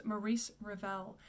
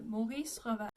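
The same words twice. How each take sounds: First: Maurice Ravel as "muh-REECE ruh-VEL"; softer English-style Maurice Ravel; anglicized pronunciation. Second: Maurice Ravel with open o and French r's; French pronunciation. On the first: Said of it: "The way you say his first name". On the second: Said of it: "with an open O". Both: Shown as a demonstration.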